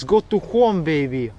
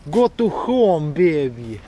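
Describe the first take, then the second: First: Lightly Russian-accented reading; a hint of a Russian accent on the sign. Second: Slow Russian accent, stretched words. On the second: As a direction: read it in a thick Russian accent. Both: Shown as a demonstration. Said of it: "read this in a Russian accent".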